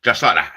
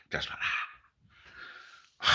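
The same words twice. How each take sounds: First: Low, growly Tommy Cooper catchphrase; lightly done Tommy Cooper voice. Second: Slow whispered catchphrase; whispered Tommy Cooper. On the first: Comic doing Tommy Cooper's catchphrase, low and growly. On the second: Comic whispering Tommy Cooper's catchphrase, slow. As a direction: breathe it out slowly. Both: Retold or imitated. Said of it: "my Tommy Cooper impression".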